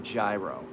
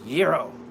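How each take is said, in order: First: The word has an anglicized English pronunciation. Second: The word has a Greek-like pronunciation. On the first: The speaker calls it wrong. "I would never ask for a gyro. I don't do that because that doesn't make sense" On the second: The speaker calls it right. "I say it like I'm Greek"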